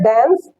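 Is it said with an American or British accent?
American. It is said with an American accent.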